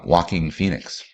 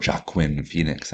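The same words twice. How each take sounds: First: Joaquin said "WAH-keen", like "walking"; "Joaquin" starting with a W sound; everyday pronunciation. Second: Joaquin sounded out as "joh-AH-kwin"; "Joaquin" read as spelt, J and kwin; joke proper pronunciation. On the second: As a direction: say Joaquin with a hard J and a "kwin" ending. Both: Shown as a demonstration. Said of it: "as it's properly pronounced".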